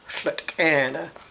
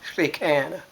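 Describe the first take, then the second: First: The first part is said as slet. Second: The first part is said as slie.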